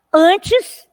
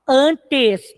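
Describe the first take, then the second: First: Said in the usual way. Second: "antes" em duas sílabas separadas, "an-tes"; separação silábica. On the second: Shown as a demonstration. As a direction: diga "antes" escandido, com o "te" bem pronunciado. ("antes" sílaba por sílaba, como professora) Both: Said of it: "duas sílabas".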